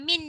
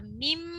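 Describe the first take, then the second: First: The word ends with an n sound. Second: The word ends with a closed-lip m sound. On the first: The speaker calls it wrong. "Bukan min ya" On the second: The speaker calls it right. "Ada tanda mim. Nun mati jumpa ba kena bunyi huruf mim"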